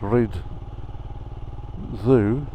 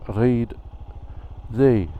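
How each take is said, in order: First: The second word sounds like English 'zoo'. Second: The second word does not sound like 'zoo'. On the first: This is how the speaker wrongly thought it was said. The speaker calls it wrong. "one of the locations I thought was called Rhyd Zoo" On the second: This is how the place is actually said. The speaker calls it right. "it's actually called Rhyd Ddu"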